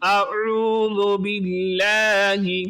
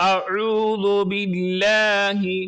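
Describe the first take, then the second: No difference in how they are said.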